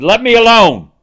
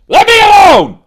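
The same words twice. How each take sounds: First: "Let me alone" कहो, ऊँचा और ज़ोर से, "alone" पर ज़ोर; a wrathful God ordering; God's angry command. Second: "Let me alone" कहो, बहुत ऊँचा और बहुत ज़ोर से, "alone" पर गिरता सुर; booming voice of God. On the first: Retold or imitated. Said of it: "He said". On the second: Shown as a demonstration. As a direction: thunder it like an enraged God. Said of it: "I've got a pretty good voice for that kind of thing".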